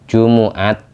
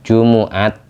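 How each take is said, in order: First: The m is followed by a u vowel. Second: The same.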